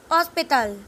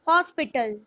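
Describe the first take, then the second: First: Hospital with silent h, "os-pee-TAL"; Spanish pronunciation. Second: Said in the usual way. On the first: Shown as a demonstration. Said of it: "In Spanish". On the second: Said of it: "H is pronounced as".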